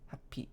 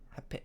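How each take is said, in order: The two takes are said the same way.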